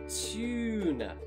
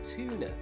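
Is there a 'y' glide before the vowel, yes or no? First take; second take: yes; no. First: The vowel is a long 'you' with a 'y' glide before it. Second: The vowel is a plain 'oo' with no 'y' glide before it. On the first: This is the British pronunciation. The speaker calls it right. "It needs to be a long vowel U sound, so U, such as tuna" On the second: This is the American pronunciation. The speaker calls it wrong. "Some Americans will often say long vowel U as an oo sound, such as tuna, like that"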